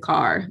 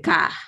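First: It is said in a non-Nigerian accent. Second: It is said in a Nigerian accent. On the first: "people kind of really don't say car" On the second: "We say ka"

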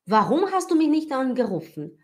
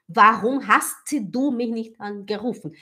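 First: It is said quickly, with the words run together. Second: It is said slowly, with every sound pronounced.

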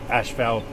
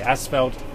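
First: The word is said without a clear s-p sound. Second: The word is said following its spelling, with s-p. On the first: The speaker calls it wrong. "and not asphalt" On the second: The speaker calls it right. "I'm going to say asphalt"

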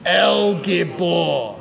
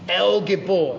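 First: It is said forcefully, with strong energy. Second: It is said in a plain, ordinary way.

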